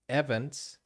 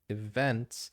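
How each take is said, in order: First: The stress is on the first syllable. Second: The stress is on the second syllable. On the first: The speaker calls it wrong. "he said events" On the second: The speaker calls it right. "instead of events"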